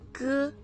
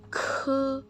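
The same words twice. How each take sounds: First: The consonant is released without a puff of air. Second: The consonant is released with a puff of air. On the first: "G itu dibaca kayak huruf K" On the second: "Yang ini ada hanya"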